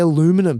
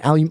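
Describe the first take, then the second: First: Aluminum is said with an American pronunciation. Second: Aluminum is said with an Australian pronunciation. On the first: This is the way an American audience understands. "I say aluminum" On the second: This is the way an American audience does not understand. "they don't understand"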